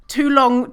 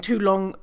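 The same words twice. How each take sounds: First: "too long" said higher and louder, both words punched; stress on too long. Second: Said in the usual way. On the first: Shown as a demonstration. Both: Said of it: "too long, didn't read".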